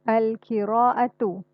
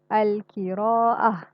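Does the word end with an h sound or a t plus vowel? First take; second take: t plus vowel; h sound. First: The word ends with a t and a vowel. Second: The word ends with a soft h sound. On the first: The reading continues without stopping. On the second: The reader stops at this word.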